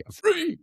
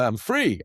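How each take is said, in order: First: Mock gleeful squeal. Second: Said in the usual way. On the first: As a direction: jump way up into a squeal on "I'm free". Repeats "I'm free" then squeals it.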